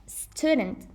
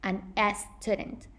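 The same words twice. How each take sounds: First: "student" starting straight on the hissed S; "student" opening on a clean sss; standalone initial S. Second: "S student" with an extra "es" before the word; "student" mispronounced as "es-tudent"; wrong added vowel. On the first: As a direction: say "student" with no vowel before the S. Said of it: "the S has to be pronounced as their own". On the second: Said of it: "non an S student". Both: Shown as a demonstration.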